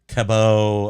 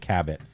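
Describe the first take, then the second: First: The name has a French pronunciation. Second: The name has an American English pronunciation. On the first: This is the name's original form. "instead of cabot" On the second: This is how locals say the name. "cabot is how we say"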